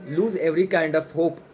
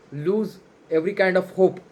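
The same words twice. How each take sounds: The two takes are said the same way.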